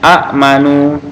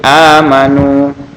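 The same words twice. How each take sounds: First: A glottal stop follows a short first vowel. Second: The first vowel is drawn out long. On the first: This is the underlying form with two hamzas. "ini aslinya amanu" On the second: The silent hamzah is replaced by lengthening. "jadi amanu"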